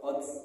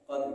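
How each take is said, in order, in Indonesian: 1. Kata itu berakhir dengan bunyi desis tambahan. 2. Kata itu berakhir hanya dengan embusan napas. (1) "nah ini sudah salah" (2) "terdengar hanya napas saya"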